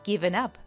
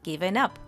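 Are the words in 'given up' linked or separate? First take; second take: linked; linked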